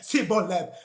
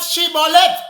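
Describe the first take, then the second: First: The word begins with an s sound. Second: The word begins with an sh sound. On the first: The speaker cannot say the word properly. The speaker calls it wrong. "he could not pronounce the word right" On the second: This is the word as it should be said. The speaker calls it right. "Not Shibboleth"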